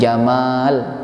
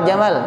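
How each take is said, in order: First: The vowel after the m is long. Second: The vowel after the m is short. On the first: It means beauty. The speaker calls it right. "Jamal kalau ingin diartikan indah maka mimnya panjang" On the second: It means camel. The speaker calls it wrong. "itu manggil onta ya"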